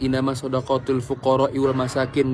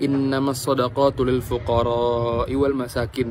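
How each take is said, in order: First: The vowel before fuqara is cut short. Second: The vowel before fuqara is held long. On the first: The speaker calls it wrong. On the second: The speaker calls it right.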